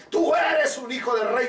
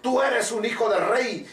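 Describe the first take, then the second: First: Preaching shout. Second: Said in the usual way. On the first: Acted. The king proclaiming to Mephibosheth, shouted. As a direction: lift it into a ringing shout. Repeated line, second take shouted.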